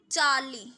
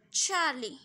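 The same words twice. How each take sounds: First: Charlie with a weak, unaspirated ch, close to j; flat-tongued 'jaa-lee' for Charlie; mispronounced Charlie. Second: Charlie with a breath-puffed छ at the start; correct Charlie. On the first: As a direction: say Charlie wrongly, without the puff of air. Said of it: "Not this, this is Charlie". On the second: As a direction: say Charlie with a strong aspirated ch. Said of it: "थोड़ा छ का sound होना चाहिए". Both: Shown as a demonstration.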